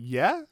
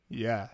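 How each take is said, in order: First: The voice rises at the end. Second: The voice falls at the end. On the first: It is a question. The speaker calls it right. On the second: It is a plain statement. The speaker calls it wrong.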